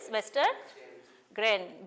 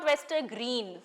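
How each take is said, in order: First: The last syllable sounds like 'gren'. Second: The last syllable sounds like 'green'. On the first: The speaker calls it right. "It is oyster গ্রেন, G R E N" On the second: The speaker calls it wrong. "But it is not oyster গ্রিন"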